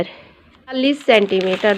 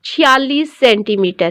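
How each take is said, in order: First: Soft repeat. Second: Said in the usual way. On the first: Shown as a demonstration. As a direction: repeat the figure much softer, lower. (धीमी, नीची आवाज़ में दोहराना)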